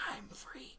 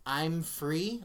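First: Eerie, hushed voiceless whisper; very soft imitated ghostly whisper. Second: Said in the usual way. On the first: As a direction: whisper it like a voice in the pillow. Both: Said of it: "I heard something whisper".

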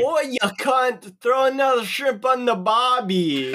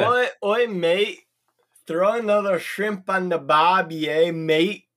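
First: Put-on Australian accent. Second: Conversational mock Australian, matey lilt; second, more relaxed go at an Australian accent. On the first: Player tries talking to giant spiders, bad Australian accent. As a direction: call out in a hammed-up, Irish-tinged Australian accent. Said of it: "talk to them in Australian". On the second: Player practises talking like from down under, Australian accent. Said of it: "talk like you're from down under".

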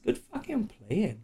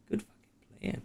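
First: Mock praise voice. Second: Hoarse whisper of good game; whispered praise. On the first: Praising players in a put-on voice. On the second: Pretend. Game master whispering praise to the players.

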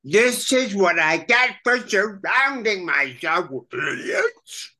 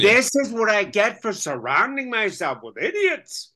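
First: High Krang voice, idiots cracking into a wail. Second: Higher, kvetching mother tone. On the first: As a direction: whine it like an exasperated alien brain. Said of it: "let me see if you can get this". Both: Acted.

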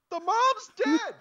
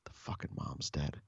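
First: Slow, very high, loud outburst; exasperated shout. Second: Hushed, appalled aside; aghast whisper. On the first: Onlooker to his oblivious partner, exasperated high shout. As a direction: shout it in sheer disbelief, drawn out. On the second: Onlooker realising the mom died, aghast whisper. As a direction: whisper it under your breath, low and unvoiced-sounding. Silent thought during partner's call. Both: Retold or imitated.

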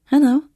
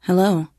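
First: A higher, louder bright answer in her own voice; machine hello. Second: Said in the usual way. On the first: Acted. The module answering Katie's hello, higher and louder. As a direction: echo the greeting back, higher and louder. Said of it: "the module replied".

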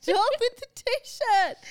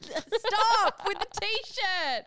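First: Slow, high, loud whiny plea; louder playful protest. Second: Slow, drawn-out whiny stop; playful protest. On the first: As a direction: stretch it out, higher and louder. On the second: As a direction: drag the words out in mock exasperation. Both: Real, not acted. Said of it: "teasing protest".

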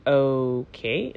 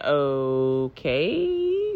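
First: A low, soft, deadpan okay; flat okay. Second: A low, soft okay, slowly rising; drawn-out okay. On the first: To the boyfriend, deadpan and unimpressed. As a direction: let it drop, unimpressed. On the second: To the boyfriend, a long doubtful okay. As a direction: stretch the okay out, baffled. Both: Retold or imitated. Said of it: "That's literally how I said it".

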